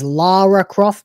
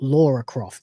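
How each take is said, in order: First: The first vowel sounds like 'ah'. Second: The first vowel sounds like 'aw'. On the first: The speaker calls it right. "it is Lara Croft" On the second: The speaker calls it wrong. "not Laura Croft. There's a U in the word Laura"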